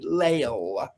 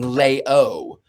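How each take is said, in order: First: The name ends with a clearly pronounced 'el' sound. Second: The name ends with an open 'oh' sound. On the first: The speaker calls it right. "I do have to sort of over enunciate it" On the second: The speaker calls it wrong. "sometimes people think I'm saying"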